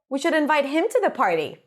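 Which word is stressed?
him. The word him is stressed with higher pitch. He, not someone else, should be invited. "if I stress him"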